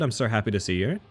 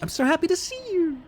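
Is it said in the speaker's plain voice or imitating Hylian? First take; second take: plain; imitating Hylian. First: It is said in the speaker's ordinary voice. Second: It is said imitating the way Hylian says it.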